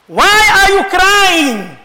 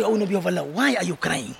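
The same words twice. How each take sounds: First: Slow, drawn-out, raised question; impassioned cry. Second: Very low, soft and grave; hushed question. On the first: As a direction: call it out long and high to the congregation. Same question repeated for the congregation. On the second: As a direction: ask it gently, almost under the voice. Companions ask the weeping Prophet. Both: Retold or imitated.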